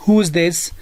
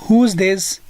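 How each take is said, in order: The two takes are said the same way.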